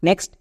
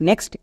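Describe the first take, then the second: No difference in how they are said.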